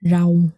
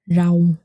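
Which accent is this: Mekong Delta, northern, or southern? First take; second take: southern; southern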